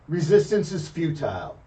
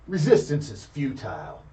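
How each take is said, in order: No difference in how they are said.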